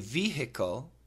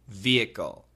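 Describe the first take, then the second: First: The H sound in the middle is pronounced. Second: The H sound in the middle is silent. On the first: "some people do say vehicle because there's an H" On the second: "most Americans will say vehicle with a silent H"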